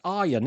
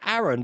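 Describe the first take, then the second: First: The name is said like 'Aryan'. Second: The name is said like 'Aaron'. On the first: The speaker calls it right. "but it's Aryan" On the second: The speaker calls it wrong. "I'm saying Aaron"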